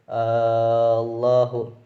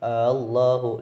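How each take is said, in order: First: The second hamza becomes a long drawn vowel. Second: The second hamza is softened and eased. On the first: "boleh dibaca ibdal" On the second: "boleh dibaca tasyil"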